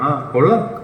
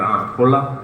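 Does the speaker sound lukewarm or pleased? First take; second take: pleased; lukewarm. First: It is said in a warm, approving tone. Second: It is said in a flat, lukewarm tone. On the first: The picture is good. "Means good" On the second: The picture is just okay. "Means okay"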